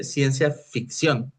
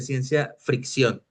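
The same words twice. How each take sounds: First: "ficción" with no r after the f; correct pronunciation. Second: "fricción" con una r de más tras la f; pronunciación errónea. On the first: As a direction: slowly model "ficción", f straight into i. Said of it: "Se dice ciencia ficción". ("ficción" bien dicho, despacio y sin r) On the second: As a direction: say "fricción", slipping an r in after the f. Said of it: "no ciencia fricción". ("fricción" mal dicho, con r añadida) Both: Shown as a demonstration.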